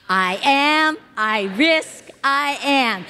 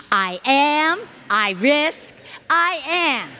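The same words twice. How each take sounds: The two takes are said the same way.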